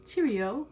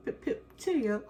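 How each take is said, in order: First: A weak, failed stab at a British "Cheerio"; mock posh British "Cheerio" after a sigh; bad British accent. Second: A higher, hammed-up British "Pip, pip, cheerio"; goofy British accent, second try; mock British accent. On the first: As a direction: try a British "Cheerio" and miss it. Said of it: "I wish I could do an accent". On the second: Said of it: "That's not how she talks".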